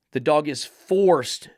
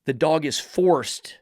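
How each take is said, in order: First: Slow, "forced" hit and falling; stress on forced. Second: Slow, with "forced" falling hard; stress on forced. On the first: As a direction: press "forced" again, slowly. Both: Shown as a demonstration.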